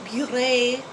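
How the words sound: The word is pronounced in a French style. The speaker calls it wrong. "it does not get a French pronunciation"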